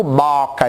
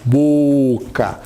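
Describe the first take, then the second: First: Boca mispronounced with an open "ó", as "bóca"; low demo of a wrong "bóca". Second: Boca with a closed, rounded "ô". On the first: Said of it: "porque eu não digo boca". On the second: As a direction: stretch boca low and slow as "bôôca". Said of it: "mais fechadinho". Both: Shown as a demonstration.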